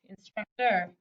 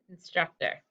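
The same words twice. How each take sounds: First: The last syllable is said with a full 'or' sound. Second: The last syllable is said with a reduced 'er' sound. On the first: This is how the word is spelled. "even though it says or" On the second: This is how the word is normally spoken.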